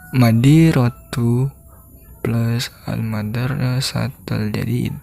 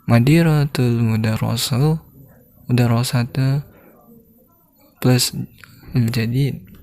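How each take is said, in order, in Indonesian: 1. Jeda muncul tepat setelah kata pertama. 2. Jeda muncul tepat sebelum kata terakhir. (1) "Jika madiratu lalu plus madirasatul jadid" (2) "madiratul madrasah dijedahkan kan, baru al-jadid"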